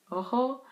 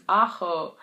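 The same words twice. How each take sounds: First: Ojo with an initial O, rising like a question; mistaken word. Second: Ajo with an open initial A, AH-kho; corrected word. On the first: Learner asking friend for garlic, Ojo said questioningly with O. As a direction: say Ojo, O-kho, higher and unsure. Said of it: "Ojo is eye". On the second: Friend correcting learner's garlic word, ajo with clear A. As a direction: say ajo slowly, leaning on the opening A. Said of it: "Ajo is garlic". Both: Retold or imitated.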